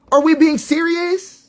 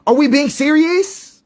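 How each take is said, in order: First: Slower and higher, leaning on we; even more exasperated repeat; incredulous. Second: Slow, high disbelief on serious; drawn-out exasperated question; incredulous. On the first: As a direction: press the we in disbelief. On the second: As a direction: ask it like you can't believe it. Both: Real, not acted.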